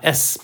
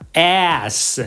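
First: The vowel is less open, like 'ess'. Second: The vowel is wide open, like 'ass'. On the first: It is the name of the letter. The speaker calls it right. "S 嘴巴不要开太大" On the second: It sounds like the word for buttocks. The speaker calls it wrong. "不要像某些艺人他们会讲S，那个嘴巴开太大就变成那个声音"

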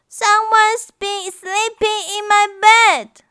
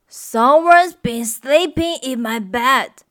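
First: A wailing, crying voice, as Baby Bear. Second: A grumbling voice, as Papa Bear.

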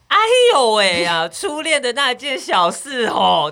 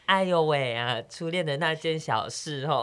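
First: It is said like a brash middle-aged auntie. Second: It is said in a shy, bashful way. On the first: The speaker calls it wrong. "怎么听起来很像大妈？" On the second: The speaker calls it right. "不是有点害羞吗？对啊，应该是"

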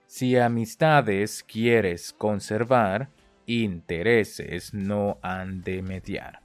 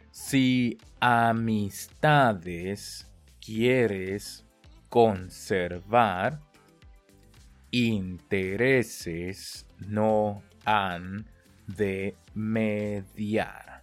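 First: The phrase is spoken at natural conversational speed. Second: The phrase is spoken very slowly and carefully. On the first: "我们用最快的，我们就到了正常速度" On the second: "跟着我念"

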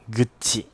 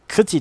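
First: The word begins with a voiced g sound. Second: The word begins with a voiceless k sound. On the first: The speaker calls it right. "它用成姓的时候，它就是会念成Guchi" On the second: The speaker calls it wrong. "我那时候每次都念Kuchi"

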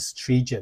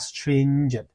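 First: The nasal n sound in the first syllable is missing. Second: The nasal n sound in the first syllable is clear. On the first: The speaker calls it wrong. "你不可以发成是stringent" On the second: The speaker calls it right. "你要发stringent"

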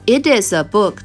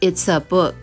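First: The words it and is are said in full. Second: The words it and is are contracted together.

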